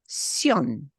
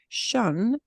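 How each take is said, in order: First: The syllable is said as Spanish 'syon'. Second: The syllable is said like English 'shun'. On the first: The speaker calls it right. "it's sion" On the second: The speaker calls it wrong. "just that syllable is not shun"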